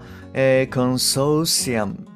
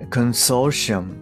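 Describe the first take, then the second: First: The middle consonant is a plain s sound. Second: The middle consonant is an sh sound. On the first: The speaker calls it wrong. "ではなくて" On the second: The speaker calls it right. "死のまま発音されるもの"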